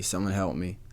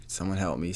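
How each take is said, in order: First: Said in the usual way. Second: Whispered plea for help. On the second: Real, not acted. Host stuck on a word, whispering a mock plea. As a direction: whisper it, half joking.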